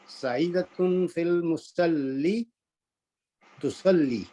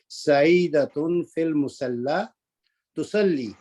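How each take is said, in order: First: The word musalla ends with an 'ee' vowel. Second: The word musalla ends with an 'a' vowel. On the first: The speaker calls it wrong. "इसको मैंने जानबूझकर गलत पढ़ा है" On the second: The speaker calls it right. "अल मुसल्ला जो है ये असल में अल्फ मकसूरा है"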